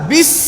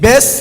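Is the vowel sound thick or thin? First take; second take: thin; thick. First: The vowel is thin and narrow, like 'bis'. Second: The vowel is broad and open, like 'besh'. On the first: The speaker calls it right. "আরো চিকন" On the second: The speaker calls it wrong. "বেশ না"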